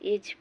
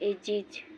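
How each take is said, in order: First: The word is said as one syllable. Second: The word is said as two syllables. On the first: The speaker calls it wrong. "ढेर जना एज पढ़ल है" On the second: The speaker calls it right. "तेकर सही उच्चारण है एजिज"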